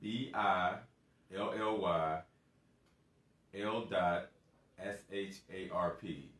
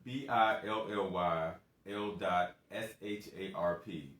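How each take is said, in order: First: The letters are spelled out slowly. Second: The letters are spelled out at normal speed.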